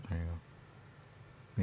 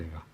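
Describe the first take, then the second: First: Very slow, soft whispered words; a drawn-out hushed whisper. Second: Said in the usual way. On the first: Pretend. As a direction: breathe it out slowly as a secret. The phrase repeated as a whisper.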